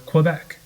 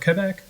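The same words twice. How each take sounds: First: It is pronounced in an anglicized American way. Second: It is pronounced close to the local way. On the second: "in ways more similar to how people from those places pronounce them"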